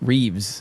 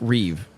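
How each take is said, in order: First: The name ends with an s sound. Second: The name ends with a v sound. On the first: The speaker calls it wrong. "people that add the S to Christopher Reeve name" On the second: The speaker calls it right. "It's Reeve"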